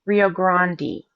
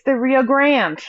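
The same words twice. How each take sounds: First: Grande as GRAHN-dee; two syllables in Grande, open ah then ee; non-Texan pronunciation. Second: Grande as one syllable, GRAND; Texan pronunciation. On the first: Retold or imitated. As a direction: say Rio GRAHN-dee, the way Texans supposedly never do. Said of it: "never heard a Texan say". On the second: Shown as a demonstration. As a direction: silent e on Grande, like English grand. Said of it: "We say it's".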